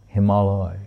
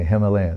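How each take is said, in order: First: The word is said as Sanskrit hima-alaya. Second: The word is said the usual English way. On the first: The speaker calls it right. "Because it's Hema and Aloy" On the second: The speaker calls it wrong. "When I say Himalaya, no"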